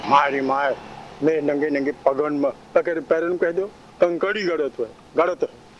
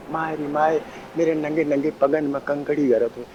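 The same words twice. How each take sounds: First: माय रे माय said in a slightly harsh, grating voice; a hint of rasp on मेरे नंगे नंगे पगन में. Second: Sweet voice. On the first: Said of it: "उसी कर्कश शब्द में बोलो". (कर्कश आवाज़ का हल्का सा पुट) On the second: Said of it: "वही अर्थ वही निकला". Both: Shown as a demonstration.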